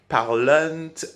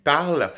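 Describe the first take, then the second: First: It ends with an added nasal vowel sound. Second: It ends on the L with no nasal sound. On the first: The speaker calls it wrong. "also pronounce the N and the T, ... something really strange" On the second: The speaker calls it right. "pronouncing it this way"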